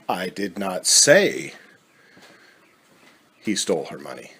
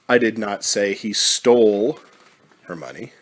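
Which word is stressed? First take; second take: I; stole. First: The word I is stressed. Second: The word stole is stressed. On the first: Someone else said it. "Implies that it was said, but not by you" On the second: The money was perhaps given, not taken. "Implies that the money is gone, but maybe it wasn't taken, maybe it was given"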